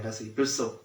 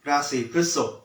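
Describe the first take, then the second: First: พฤษภ with the r cluster, as พรึด-สบ; พฤษภ pronounced correctly with the r; correct pronunciation. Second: พฤษภ said without the r, as พึด-สบ; พฤษภ mispronounced without the r cluster; wrong pronunciation. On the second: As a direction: drop the r in พฤษภ, say พึด-สบ like the fortune tellers. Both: Shown as a demonstration. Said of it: "ออกเสียงผิด".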